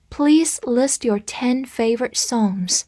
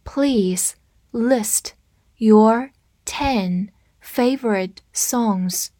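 First: Said in the usual way. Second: Word by word with long gaps; slow read-through. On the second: Shown as a demonstration. Teacher modelling the favorite-songs request for learners, slow read-through. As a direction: say each word slowly and separately. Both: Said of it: "我们慢读一遍".

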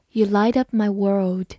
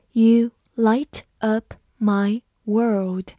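First: Said in the usual way. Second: Slow, word by word; slow reading. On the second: Shown as a demonstration. Teacher reading slowly for students to follow. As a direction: read it slowly for learners. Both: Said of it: "好，慢慢来读。".

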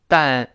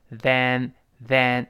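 First: "than" said as "dan", with a plain d; mistaken th. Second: "than" with a voiced th, drawn out; tongue-out th. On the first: Teacher shows the mistake to avoid, "than" as "dan". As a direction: start "than" with d, tongue kept in. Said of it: "不要读than". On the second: Teacher models the correct sound, voiced th in "than". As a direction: put the tongue to the teeth for "than". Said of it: "这两个T是要吐舌头". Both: Shown as a demonstration.

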